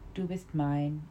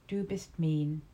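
First: It is pronounced in a present-day German way. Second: It is pronounced in a reconstructed medieval German way. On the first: "In modern German" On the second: "attempted pronunciation of 12th century German"

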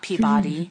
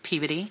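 First: The ending is said fully, like the word body. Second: The ending is reduced to a short, weak syllable. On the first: The speaker calls it wrong. "Not Peabody" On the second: The speaker calls it right. "it's Peabody"

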